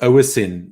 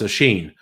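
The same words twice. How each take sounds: First: The middle consonant is a plain s sound. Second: The middle consonant is an sh sound. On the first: The speaker calls it wrong. "it looks like" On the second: The speaker calls it right. "No, it's Oisin ... There's no H there"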